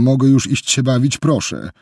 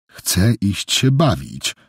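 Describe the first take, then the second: First: Higher, pleading "mogę już iść się bawić"; pleading child. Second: Put-on slow, whining "Chcę iść się bawić" like a sulky child; whiny tearful tone. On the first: Boy begging Jessica to let him go play, pleading. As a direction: beg like a child who wants out. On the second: Boy dodging Jessica's questions, slow tearful whine. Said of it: "powiedział nagle płaczliwym tonem". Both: A narrator's reading.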